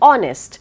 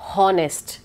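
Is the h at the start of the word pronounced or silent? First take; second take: silent; pronounced. First: The word begins directly with the vowel sound. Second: The word begins with an audible h sound. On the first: The speaker calls it right. "it's honest" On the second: The speaker calls it wrong. "it's not honest"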